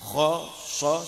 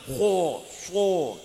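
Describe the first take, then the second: First: The lips are only moderately rounded. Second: The lips are pushed far forward, overly rounded. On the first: The speaker calls it right. "ho so sudah cukup" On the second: The speaker calls it wrong. "jangan ho so kemoncongan itu namanya"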